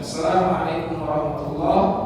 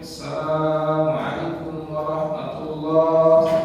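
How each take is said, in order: First: The vowel in 'assalam' is kept short. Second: The vowel in 'assalam' is drawn out long. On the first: "yang sunnah adalah memendekkan" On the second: "Sebagian orang mungkin memanjangkan"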